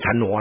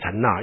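First: The second syllable is pronounced nuo. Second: The second syllable is pronounced na. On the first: This is how the older generation says it. "老一辈都念禅挪啦" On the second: This is closer to the original sound. "我还是喜欢念禅那，因为比较接近元音嘛"

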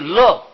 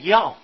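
First: The character is read as lè. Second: The character is read as yào. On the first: The speaker calls it wrong. "不是乐" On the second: The speaker calls it right. "就表示这个字要读气声，读要"

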